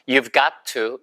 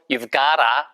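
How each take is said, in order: First: Both words of 'got to' are said separately. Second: 'Got to' is squeezed together into 'gotta'.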